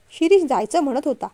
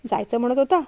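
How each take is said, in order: First: Said in the usual way. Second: "होता" lifted at the end as a question; questioning echo. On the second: A narrator's reading. Father challenges the son's plan, questioning echo rising on "होता". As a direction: echo it back with a rise on "होता". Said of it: "विश्वराजांनी असं विचारल्यावर".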